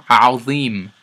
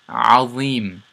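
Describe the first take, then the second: No difference in how they are said.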